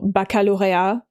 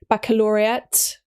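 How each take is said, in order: First: It is pronounced with a French accent. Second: It is pronounced with an English accent.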